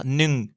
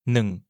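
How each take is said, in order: First: "nung" with a French U vowel; wrong U vowel. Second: "Nung" low and falling, with a neutral vowel. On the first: Teacher showing francophones' common mistake, "nung" with French U. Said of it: "prononcer la voyelle comme un U". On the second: Teacher modelling Thai one, low-toned "Nung" with neutral vowel. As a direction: drop "Nung" like the last word of a French sentence. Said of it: "avec un ton bas". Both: Shown as a demonstration.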